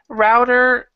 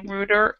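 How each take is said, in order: First: The word is said in a non-British way. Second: The word is said in a British way. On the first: "we say router" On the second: "possibly in British English, they might say router"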